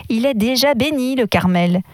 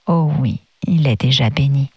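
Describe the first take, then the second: First: Displeased. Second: Gently. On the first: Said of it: "d'une voix mécontente". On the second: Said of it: "reprit avec douceur". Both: A narrator's reading.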